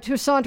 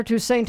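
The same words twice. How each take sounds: First: Toussaint with AH in the last syllable; Toussaint as too-SAHNT. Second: Toussaint with AY in the last syllable; Toussaint as too-SAINT. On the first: Host giving both sides of an argument, Toussaint as too-SAHNT. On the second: Host giving both sides of an argument, Toussaint as too-SAINT. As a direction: end Toussaint like the word "saint". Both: Shown as a demonstration. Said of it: "and that's an argument".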